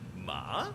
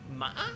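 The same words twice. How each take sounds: First: The pitch dips down, then rises again. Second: The pitch wavers and breaks like a bleat. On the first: "it does a little dip and then rises" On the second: "it sounds like a dying sheep"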